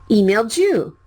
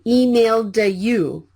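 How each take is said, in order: First: The d and y blend into a j sound. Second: The d and y are said separately. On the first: The speaker calls it right. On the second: The speaker calls it wrong. "please don't say emailed you"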